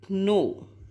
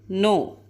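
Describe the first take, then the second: First: The word starts with a k sound. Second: The word starts with an n sound. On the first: The speaker calls it wrong. "But we don't say no. ... Kuno is wrong" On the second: The speaker calls it right. "K is silent here. So we say no"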